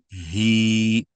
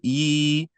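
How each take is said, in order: First: It starts with a deep, breathy h sound. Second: It starts with a plain vowel, no h. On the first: The speaker calls it right. "you want he" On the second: The speaker calls it wrong. "Instead of saying e"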